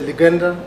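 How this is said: The name is said in the American way. "In U S A they say"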